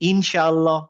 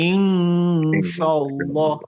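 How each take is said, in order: First: The n sound is pronounced clearly and fully. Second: The n sound is hidden as a nasal hum. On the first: The speaker calls it wrong. "আমি যদি এই ইনশাআল্লাহটাকে ইধার দিয়ে পড়ি" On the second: The speaker calls it right. "ইধার দিয়ে পড়তে পারব না বিকজ শিনটা ইকফা লেটার। তখন আমি বলব"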